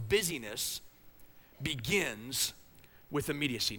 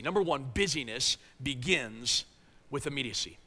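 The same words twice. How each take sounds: First: Busyness, begins, with immediacy, each set apart by a pause; slow pauses between words. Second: Said in the usual way. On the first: Shown as a demonstration.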